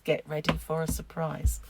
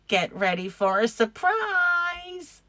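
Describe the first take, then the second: First: It is said in the speaker's own normal voice. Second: It is said in a put-on character voice. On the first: "If you didn't understand that, it's" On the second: "if I do it in the voice"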